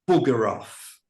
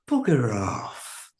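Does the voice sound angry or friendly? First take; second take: angry; friendly. First: It is said in a sharp, angry tone. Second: It is said in a light, friendly tone. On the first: Go away, you are unwelcome. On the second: Please don't go to that trouble.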